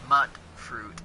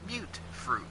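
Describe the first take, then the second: First: The first vowel is short, as in 'mutt'. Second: The first vowel is long, as in 'mute'. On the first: The speaker calls it wrong. "it's not mutt fruit" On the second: The speaker calls it right. "It's mute fruit. ... that's how they pronounce it in-game"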